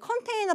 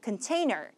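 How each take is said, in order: First: The first vowel is a full open o. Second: The first vowel is reduced to a weak uh. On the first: The speaker calls it wrong. "컨테이너가 아니라 container야" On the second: The speaker calls it right. "큰이겠죠"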